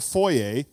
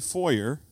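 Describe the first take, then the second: First: It is said with a non-American pronunciation. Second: It is said with an American pronunciation.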